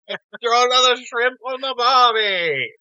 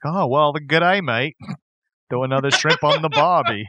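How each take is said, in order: First: High, slow, hammed-up Australian accent; mock Australian accent. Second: Lightly imitated Australian accent; mock Australian accent. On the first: Co-host echoes the movie line, exaggerated Australian accent. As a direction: stretch it into a big fake Australian cry. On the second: Quoting Dumb and Dumber, light mock Australian accent. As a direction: toss off a film's fake Australian greeting. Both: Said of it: "my favorite reference to other accents".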